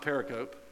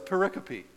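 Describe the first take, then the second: First: The word is pronounced in a plain, dull way. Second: The word is pronounced in a playful, fun way. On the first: The speaker calls it wrong. "That's a boring way to say that word" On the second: The speaker calls it right. "The fun way to say that word is pericope"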